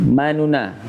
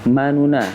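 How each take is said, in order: Both takes have the same delivery.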